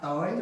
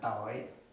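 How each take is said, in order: First: The pitch rises on the word. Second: The pitch drops very low on the word. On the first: "it's going up" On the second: "this is down, very down"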